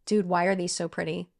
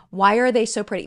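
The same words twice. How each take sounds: First: Said in the usual way. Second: Louder gushing repeat; louder gushing repeat of the question; loud delighted exclaim. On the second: Real, not acted.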